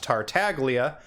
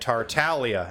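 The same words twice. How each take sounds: First: The middle G is a hard English G. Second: The middle G is silent, giving a 'ly' sound. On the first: The speaker calls it wrong. "like his V A, Griffin Burns, says" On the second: The speaker calls it right. "That G does not make the usual sound we would expect it to make in English"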